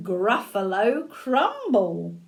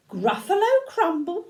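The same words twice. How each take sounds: First: Deliberate, relishing storybook delivery; teasingly menacing mouse, lightly acted; playful threat. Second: High, rising, incredulous; lightly acted storybook alarm; alarmed echo. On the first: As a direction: savour the name of the dish. Mouse names favourite food as threat. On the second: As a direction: repeat it as a shocked question. Gruffalo echoes it in alarm. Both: A narrator's reading.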